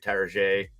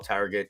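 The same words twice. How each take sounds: First: The name is over-enunciated to sound fancy. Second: The name is said in a plain, ordinary way.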